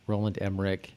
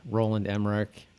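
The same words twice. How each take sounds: The two takes are said the same way.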